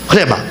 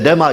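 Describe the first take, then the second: First: The word starts with an h sound before r. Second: The word starts directly with an r sound. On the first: "정확한 단어는 흐레마입니다" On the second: "묵음이 돼가지고 발음을 하지 않기 때문에 레마 이렇게 하는데"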